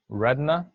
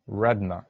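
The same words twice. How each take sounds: First: Retina high with a rising end; pronunciation model. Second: Retina at usual pitch, falling; pronunciation model. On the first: Teacher first models retina for the class, rising pronunciation model. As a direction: lift retina like a prompt. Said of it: "learn how to pronounce these words". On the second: Teacher repeats retina before pupils try, falling pronunciation model. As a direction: settle retina with a falling end. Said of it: "Now you try it". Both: Shown as a demonstration.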